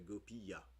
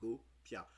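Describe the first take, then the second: First: The word is said in three syllables. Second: The word is said in two syllables. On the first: "il peut avoir trois syllabes" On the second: "deux syllabes en fait"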